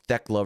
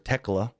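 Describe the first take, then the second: First: The name begins with a 'th' sound. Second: The name begins with a plain 't' sound. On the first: The speaker calls it wrong. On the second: The speaker calls it right.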